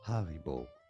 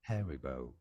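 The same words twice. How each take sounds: First: It is said in a German accent. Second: It is said in an American English accent.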